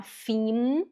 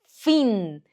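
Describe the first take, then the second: First: "fim" drawn out with a closed m; rising "fimm", lips shut at the end; wrong way. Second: "fim" with a nasal n-like ending; louder, falling nasal "fim"; correct way. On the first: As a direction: show the mistake, humming m on "fim". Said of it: "você não fala fim". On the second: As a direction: say "fim" as "fin", lips left open. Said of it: "você fala". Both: Shown as a demonstration.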